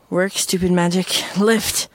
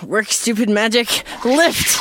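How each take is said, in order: First: It is said softly and measured. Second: It is said forcefully and loudly.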